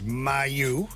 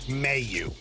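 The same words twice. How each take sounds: First: The name is pronounced the French way. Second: The name is pronounced the anglicized way. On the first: This is the original form of the name. "the French pronunciation is Mayu" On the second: This is the form the family uses. "we've always used Mayu"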